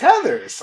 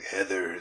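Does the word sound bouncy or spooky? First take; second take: bouncy; spooky. First: The word is said in a fun, bouncy way. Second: The word is said in a spooky, eerie way. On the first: The movie is fun. "Or if it's fun and bouncy, it's" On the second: The movie is scary. "if it's spooky, I'm like"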